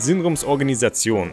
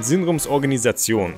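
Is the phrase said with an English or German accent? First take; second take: German; German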